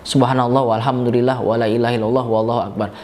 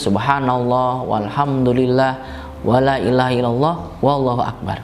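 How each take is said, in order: First: It is recited quickly without pauses. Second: It is recited slowly and calmly with pauses. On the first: "kalau mau cepet ya ... Itu udah cepat" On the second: "Bacanya juga tartil ... Yang tenang"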